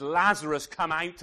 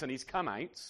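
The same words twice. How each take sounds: First: Commanding call. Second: Said in the usual way. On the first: Acted. Jesus calling Lazarus out.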